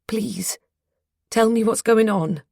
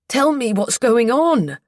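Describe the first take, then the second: First: It is said quietly. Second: It is shouted loudly.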